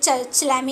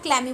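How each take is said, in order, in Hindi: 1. यह शब्द 'ch' ध्वनि से शुरू होता है। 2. यह शब्द 'k' ध्वनि से शुरू होता है। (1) "चलैमी नहीं बोलते हैं उसको" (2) "क्लैमी बोलते हैं"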